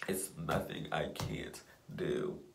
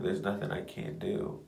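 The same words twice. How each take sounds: First: Slow, soft whisper to yourself; whispered affirmation. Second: Said in the usual way. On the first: Real, not acted. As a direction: say it slowly under your breath.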